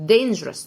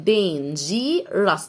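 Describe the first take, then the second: First: Said in the usual way. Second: "dangerous" very slow, dain-jee-rus; split syllables. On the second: Shown as a demonstration. Teacher splits it first for pupils, slow three-part "dangerous". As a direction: break "dangerous" into three separate parts. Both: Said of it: "نقسمها الأول".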